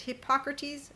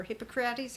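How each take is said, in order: First: Hippocrates stressed on the second syllable; alternative pronunciation. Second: Hippocrates stressed on the third syllable; alternative pronunciation. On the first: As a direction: say Hippocrates as hip-POCK-ruh-teez. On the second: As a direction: say Hippocrates as hippo-CRAH-teez. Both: Shown as a demonstration. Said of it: "however you pronounce that".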